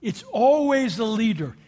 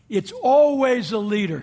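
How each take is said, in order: First: Said in the usual way. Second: It's always the leader, slower and louder, stressing "always"; slow emphatic repeat. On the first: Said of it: "And she said". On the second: Shown as a demonstration. Speaker repeats the clerk's motto for the audience, slow and loud. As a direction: hammer home "always" so the crowd can echo it. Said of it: "Can you say that?".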